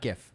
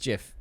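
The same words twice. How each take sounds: First: It begins with a hard G sound. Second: It begins with a soft J sound. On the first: The speaker calls it wrong. "it's not GIF" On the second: The speaker calls it right. "it's a J, like the peanut butter"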